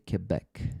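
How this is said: It is said the way Canadians say it. "Canadians I've met say Quebec"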